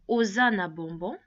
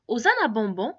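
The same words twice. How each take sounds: First: Said in the usual way. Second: Osa na bonbon with a rise on bonbon, asking; question intonation. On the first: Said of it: "la personne sait que j'affirme". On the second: Shown as a demonstration. Teacher contrasts statement and question, rising on bonbon. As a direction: lift bonbon to turn it into a question. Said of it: "je pose la question".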